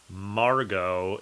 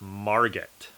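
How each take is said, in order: First: The final T is silent. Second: The final T is pronounced. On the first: The speaker calls it right. "you pronounce that name Margot. You don't say the T at the end" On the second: The speaker calls it wrong. "It is not Margit"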